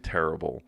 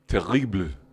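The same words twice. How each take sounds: First: It is said with an English pronunciation. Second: It is said in a Parisian French accent.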